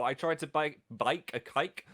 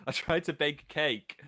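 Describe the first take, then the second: First: "bike" said where bake is meant; slipped vowel. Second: Said in the usual way. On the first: Real, not acted. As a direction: trip over the vowel and repeat "bike". Slip of vowels, then corrected.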